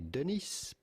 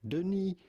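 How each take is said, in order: First: The final S sound is pronounced. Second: The final S sound is silent. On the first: The speaker calls it wrong. "Do not pronounce the S to Denis, Do not say Denis" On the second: The speaker calls it right. "it is silent in French. but rather Denis Villeneuve"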